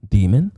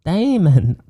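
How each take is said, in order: First: Said in the usual way. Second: "Demon" higher, stretched as "daymun"; accented pronunciation. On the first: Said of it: "We just pronounce it demon". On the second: Shown as a demonstration. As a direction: exaggerate "Demon" into DAY-mun. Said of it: "Are you mocking my accent?".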